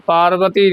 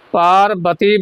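First: ਪਾਰਬਤੀ changed to "paar-va-tee"; quick ਪਾਰਬਤੀ with a loose V for B; mistaken V sound. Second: ਪਾਰਬਤੀ with B, lips joined; ਪਾਰਬਤੀ as "paar-ba-tee"; clear B sound. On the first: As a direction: say ਪਾਰਬਤੀ with V, as the wrong version. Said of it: "ਪਾਰਬਤੀ ਨਹੀਂ ਬੋਲਣਾ". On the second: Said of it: "ਬੱਬੇ ਨਾਲ". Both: Shown as a demonstration.

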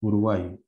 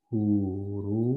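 First: Said in the usual way. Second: "Uru-" alargado, sílaba a sílaba; sílabas separadas. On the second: Shown as a demonstration. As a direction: estira cada vocal de "Uru-". ("Uru-" lento y separado en sílabas, dejando la palabra abierta) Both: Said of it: "Lo voy a separar así".

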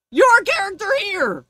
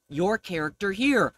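First: High loud outraged repeat; incredulous shout. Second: Said in the usual way. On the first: Shown as a demonstration. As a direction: yell it back in disbelief.

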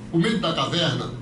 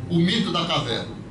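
The two takes are said the same way.

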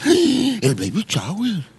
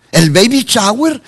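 First: Softer, very slow, after a gasp; gasp, then draw it out softly in mock wonder; mock gasping awe. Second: Higher, drawn-out teasing delivery; mock enthusiasm. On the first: Preacher mimicking a churchgoer thrilled by parties, gasping mock awe. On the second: Preacher teasing churchgoers who never miss parties, mock excitement. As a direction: stretch it out with playful excitement.

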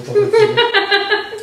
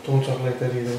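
First: Very high, slow, loud, laughing squeal; squeaky high voice. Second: Said in the usual way. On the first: Pretend. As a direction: stretch it out in a silly squeak. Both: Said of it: "repeats line in put-on voice".

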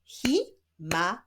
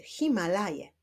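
First: "Himalaje" slowly split as hi... ma... la... je; long pause after each syllable of "Himalaje". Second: Said in the usual way. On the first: Shown as a demonstration. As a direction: clap out "Himalaje" in four separate beats. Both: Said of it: "Wyklaszczmy sylaby".

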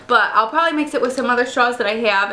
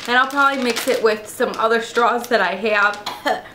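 First: Said in the usual way. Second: Coughing on a mouthful of cereal; choking on cereal. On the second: Real, not acted. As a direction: speak while half choking on cereal. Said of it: "choking on my cereal".

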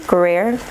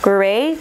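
First: "Gruyere" ending in AIR, with the R sounded; unsure pronunciation. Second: "Gruyere" ending in an open AY, no final R; unsure pronunciation. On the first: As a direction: say "Gruyere" as groo-YAIR, questioning. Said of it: "I don't know". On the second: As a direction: say "Gruyere" as groo-YAY, questioning. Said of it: "I don't know how to pronounce that". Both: Real, not acted.

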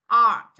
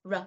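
First: "R" said as the English letter name, drawn out; name the letter "R" with a long open vowel; "R" as "ar", held. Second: "R" as its short phonic sound; "R" as a quick isolated consonant sound; letter sound. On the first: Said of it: "âm R". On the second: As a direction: sound out "R" briefly, not as "ar". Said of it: "phát âm là". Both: Shown as a demonstration.

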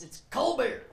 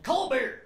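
First: "cold beer" run together as kol beer, no D; "cold beer" blended with no final D; Texan cold beer. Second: "Cold beer." said louder as kol beer; "Cold beer." with the D swallowed; dropped D. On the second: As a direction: slur "Cold beer." without the D. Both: Shown as a demonstration. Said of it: "There's not even a D at the end".

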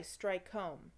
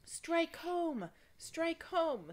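First: Said in the usual way. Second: High, loud screaming encouragement; high shouted chant from the crowd. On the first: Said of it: "would not cry". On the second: Acted. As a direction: scream it up at the hero on the ladder. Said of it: "screamed the crowd outside".

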